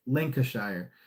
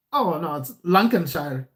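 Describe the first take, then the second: First: Said in the usual way. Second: Bad mock English accent, correcting him; a clumsy imitation of an English local saying "Lancashire" as "Lankenshire"; an English local's correction in a shaky put-on English accent; terrible English accent. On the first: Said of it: "I don't know how to say it". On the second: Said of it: "that was a terrible English accent".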